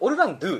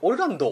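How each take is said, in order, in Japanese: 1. 名前は 'du' の音で終わる。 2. 名前は 'do' の音で終わる。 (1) "俺はずっとオルランドゥって言ってたんだけど" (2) "オルランドって言ってるんだよ"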